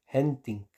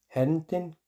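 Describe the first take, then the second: First: "henting" con i cerrada y caída final; pronunciación recomendada. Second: "Henting" con vocal final abierta, como "henten"; pronunciación escrita. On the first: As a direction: di "henting" despacio, con i española. ("henting" lento, i cerrada) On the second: ("Henting" con i abierta) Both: Shown as a demonstration. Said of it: "se dice henting".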